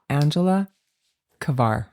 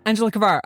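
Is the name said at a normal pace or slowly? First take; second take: slowly; normal. First: The name is said slowly and deliberately. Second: The name is said at a normal pace.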